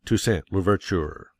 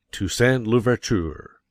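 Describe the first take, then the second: First: Said in the usual way. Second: "Toussaint Louverture" drawn out slow, each syllable weighted as the speech's climax; slow emphatic climax. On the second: Shown as a demonstration. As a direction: land the name slowly like the final word of a great oration. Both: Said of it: "Practice on the following selections for emphasis".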